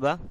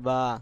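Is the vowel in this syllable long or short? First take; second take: short; long. First: The vowel is short and clipped. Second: The vowel is drawn out longer.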